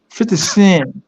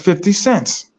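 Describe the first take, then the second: First: The final s sound is dropped. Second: The final s sound is clearly pronounced. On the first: The pronunciation that was expected and mocked. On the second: The careful pronunciation a mother insisted on. "my mother was on me about that shit. I was like"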